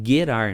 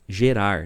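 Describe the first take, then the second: First: The word starts with a hard G sound. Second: The word starts with a soft G sound. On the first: This is the original Hebrew pronunciation. "A pronúncia no hebraico ela é Gerar" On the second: This is the Portuguese-adapted pronunciation. "a coisa meio aportuguesada, a gente acaba falando"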